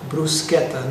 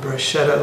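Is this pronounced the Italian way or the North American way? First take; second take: Italian; North American. First: It is pronounced the Italian way. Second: It is pronounced the North American way. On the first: The speaker calls it right. "please note the pronunciation" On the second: The speaker calls it wrong. "not bruschetta, like my friends and family back home tend to pronounce it in Canada and America"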